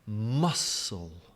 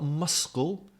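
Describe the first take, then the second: First: The c is silent, with no k sound. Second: The c is pronounced as a k sound. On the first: The speaker calls it right. "silent C" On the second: The speaker calls it wrong. "Not, not muscle"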